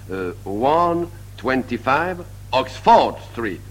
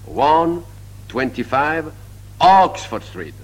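First: The stress is on the second syllable of Oxford. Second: The stress is on the first syllable of Oxford.

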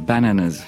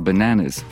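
First: No syllable is stressed more than others. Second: One syllable carries a strong stress. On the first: The speaker calls it wrong. "on peut pas dire bananas" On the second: The speaker calls it right. "faut dire bananas pour comprendre"

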